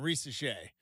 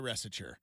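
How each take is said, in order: First: The name is given its original, non-American pronunciation. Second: The name is given an Americanized pronunciation. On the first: The player has earned respect for his name. "we'll start saying Risa Shea" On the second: The player must adapt to American ways. "you're in America now. We say Resiture"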